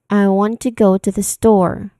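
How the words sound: Want, go and store are strong; others shrink.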